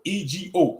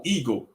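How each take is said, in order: First: E G O spelled letter by letter; each letter of E G O said separately. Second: Said in the usual way. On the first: Shown as a demonstration. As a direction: spell E G O out one letter at a time. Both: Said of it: "when I'm saying ego".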